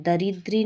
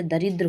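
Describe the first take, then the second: First: दरिद्री ending in long ee; wrong form. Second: दरिद्र ending on dr without ee; correct form. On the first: Teacher showing the error, दरिद्री ending in ee. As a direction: add ee at the end of दरिद्री. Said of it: "नहीं होता". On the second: Teacher correcting the word, दरिद्र without final ee. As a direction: close दरिद्र on the cluster dr. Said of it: "होता है". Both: Shown as a demonstration.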